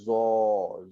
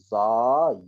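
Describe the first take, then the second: First: The vowel is a rounded oh sound. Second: The vowel is an open ah sound. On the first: The speaker calls it wrong. "Zo kurang tepat" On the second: The speaker calls it right. "bacaan yang betul"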